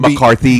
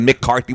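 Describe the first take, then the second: First: The first syllable is a short reduced 'muh'. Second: The first syllable is a full 'Mick'. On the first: The speaker calls it right. "we'll say McCarthy" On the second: The speaker calls it wrong. "instead of Mick Carthy"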